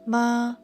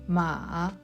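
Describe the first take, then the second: First: The pitch stays high and level. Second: The pitch dips down then rises. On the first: It means mother. "The first tone is high and steady" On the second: It means horse. "The third tone goes down and then up"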